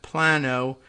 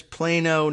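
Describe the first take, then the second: First: "Plano" with a short A, PLAH-no; pidgin Spanish reading. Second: "Plano" with a long A, PLAY-no; correct local pronunciation. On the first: Showing a misreading of the Texas town, "Plano" as PLAH-no. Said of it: "in pidgin Spanish". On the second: Confirming how the Texas town is said, "Plano" as PLAY-no. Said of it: "Yes, it is Plano". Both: Shown as a demonstration.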